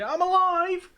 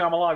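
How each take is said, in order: First: It is said in a dramatic, put-on voice. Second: It is said in a plain, ordinary voice. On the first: The speaker calls it right. "it has to be in that voice as well" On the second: The speaker calls it wrong. "It can't just be I'm alive"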